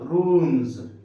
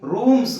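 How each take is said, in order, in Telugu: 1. ఈ పదం చివర బజింగ్ z సౌండ్ ఉంది. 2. ఈ పదం చివర హిస్సింగ్ s సౌండ్ ఉంది. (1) "జా సౌండే వస్తుంది" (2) "రూమ్స్ కాదు"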